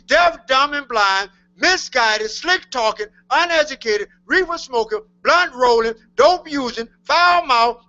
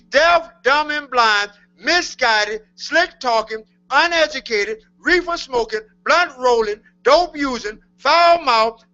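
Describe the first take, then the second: First: It is said at a faster pace. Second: It is said at a slower pace.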